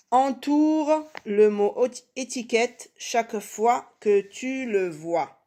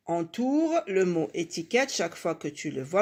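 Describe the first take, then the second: First: Slow, high, evenly spaced words; slow instruction reading. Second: Said in the usual way. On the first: Shown as a demonstration. Teacher reading the exercise to pupils, slow instruction reading. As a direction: read it out deliberately, word by word.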